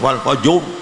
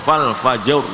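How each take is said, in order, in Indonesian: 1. Vokalnya diucapkan dengan bibir terlalu membulat. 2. Vokalnya diucapkan dengan bibir sedikit membulat. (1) "jangan kemoncongan, jangan" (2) "sudah cukup"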